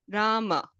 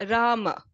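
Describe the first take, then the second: No difference in how they are said.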